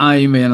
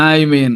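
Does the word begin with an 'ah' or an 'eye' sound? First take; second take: eye; eye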